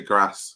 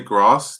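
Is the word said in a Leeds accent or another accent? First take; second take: Leeds; other. First: Said in a northern English Leeds accent. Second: Said in the speaker's everyday accent. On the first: "they say grass" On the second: "we say grass"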